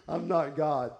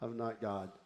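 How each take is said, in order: First: Said in the usual way. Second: Low, soft realization; quiet admission. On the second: Acted. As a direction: admit it quietly, dropping the voice. Repeats realisation more quietly.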